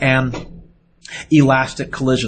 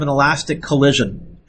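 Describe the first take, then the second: First: A long pause comes before elastic. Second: It is said quickly with no pause. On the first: The speaker calls it right. "I'll put a big pause in there" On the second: The speaker calls it wrong. "I say it really fast"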